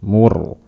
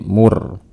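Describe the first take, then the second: The two takes are said the same way.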